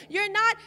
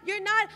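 Both takes have the same delivery.

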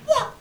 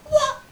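First: Said in the usual way. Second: Higher, louder outraged what; what, in high disbelief; a squeaky double-take; shocked what. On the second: Shown as a demonstration.

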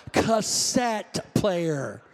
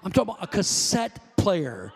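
First: "Cassette player" drawn out very slowly, each word weighted; slow emphatic repeat. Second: Said in the usual way. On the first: Shown as a demonstration. Pastor repeating "Cassette player" to the congregation, stretched slow and emphatic. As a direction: lean on "Cassette player" slowly to drive it home.

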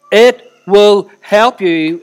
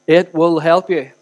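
First: "It will help you" word by word, loud and very slow; stretched, forceful stress on every word of "It will help you"; emphatic repetition. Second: "it will help you" said slowly and firmly; steady, drawn-out "it will help you"; measured assurance. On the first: Repeats it for heavy emphasis. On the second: First take of a repeated assurance. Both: Real, not acted.

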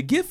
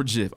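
First: Gif with a hard G. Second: Gif with a soft G. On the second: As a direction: say gif like "jif". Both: Shown as a demonstration. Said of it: "Is it gif or gif?".

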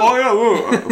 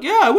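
First: Mock Sober Simon. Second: High, loud mock Simon; Sober Simon voice. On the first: Echoing the Sober Simon bit. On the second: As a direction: squeak it out as future Simon. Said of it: "Sober Simon will listen to this and be like".

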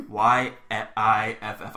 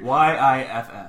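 First: Letter by letter, slowly; slow spelling. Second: Spelled out while laughing. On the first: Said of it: "spelling the word". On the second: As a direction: laugh through the letters. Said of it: "spelling again". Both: Shown as a demonstration.

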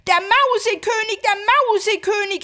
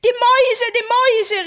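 First: High, loud panicked cry; terrified cry. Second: High, loud cry of fright; frightened cry. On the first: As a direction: shout it in horror. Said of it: "rief Marie und sprang voll Entsetzen". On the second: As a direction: scream it in terror. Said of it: "rief Marie erschreckt". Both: Acted.

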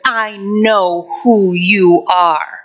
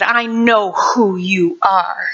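First: Slow, menacing whisper-like taunt; wicked voice. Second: Wicked voice again. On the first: The voice behind the hospital curtain, slow and menacing. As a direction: drag it out like something sinister. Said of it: "this wicked voice ... says". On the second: The voice behind the curtain repeating, slow and menacing. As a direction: drag it out darkly. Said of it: "that same voice said". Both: Retold or imitated.

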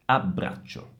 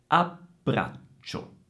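First: Low ABBRACCIO in one word with brief stops; joined-up doubles. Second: Very slow AB, pause, BRAC, pause, CIO; pauses before doubles. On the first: Teacher puts the word back together, connected ABBRACCIO. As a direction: say ABBRACCIO whole, doubles kept short. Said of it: "per fare la doppia". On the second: Teacher demonstrates the small pause, broken-up ABBRACCIO. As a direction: exaggerate the stops in ABBRACCIO. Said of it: "si fa una piccola pausa prima della consonante". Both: Shown as a demonstration.

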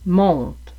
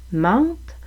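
First: "monte" with rounded nasal "on", falling; "monte", vowel clearly not "an"; closed on. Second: "mente" with open nasal "an", rising; "mente" held out, vowel clearly not "on". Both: Shown as a demonstration. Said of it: "la distinction entre".

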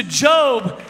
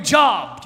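First: "Job" with a long o, like "robe"; correct pronunciation of Job. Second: "Job" like the word for work; mispronounced Job. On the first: Shown as a demonstration. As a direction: say "Job" to rhyme with "globe". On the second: Acted. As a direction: say "Job" with a short vowel, rhyming with "rob". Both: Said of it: "they look up the book of Job".

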